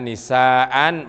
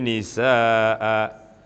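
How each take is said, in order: First: The word ends with a short vowel plus n. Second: The word ends with a drawn-out long vowel. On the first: The reading continues without a stop. "ini namanya fathatain" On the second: The reader stops on this word. "Mestinya begini bacanya dipanjangin"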